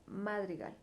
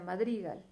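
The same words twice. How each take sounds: First: The stress is on the first syllable. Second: The stress is on the second syllable. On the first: "si yo le pusiera más fuerza en la A, en la ma" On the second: "Si le pongo más fuerza en dri"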